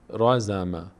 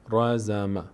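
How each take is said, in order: Both takes have the same delivery.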